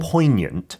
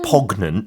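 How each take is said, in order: First: No G sound is pronounced in the middle. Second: A hard G sound is pronounced in the middle. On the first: The speaker calls it right. "but poignant" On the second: The speaker calls it wrong. "You don't pronounce the G. It's not poignant"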